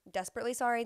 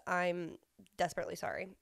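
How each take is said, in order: First: "Desperately sorry?" rising like a question; doubting the word "Desperately" she just used; puzzled question. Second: Said in the usual way. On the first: Real, not acted. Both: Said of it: "That's not even a word".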